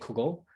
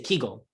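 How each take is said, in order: First: It is said in the Litvish Yiddish way. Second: It is said in the southern Yiddish way.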